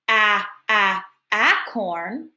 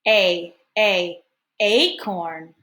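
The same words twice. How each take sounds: First: The vowel is said as a short a. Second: The vowel is said as a long A. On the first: The speaker calls it wrong. "instead of saying" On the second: The speaker calls it right. "make it a long A and say"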